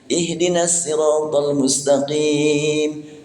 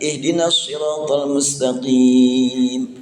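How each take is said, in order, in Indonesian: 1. Kata siratal diawali dengan S biasa. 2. Kata siratal tidak diawali dengan S biasa. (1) "bacaan riwayat Kumbul dari Ibnu Katsir pakai sin" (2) "bacaan riwayat Hafs dari Asim"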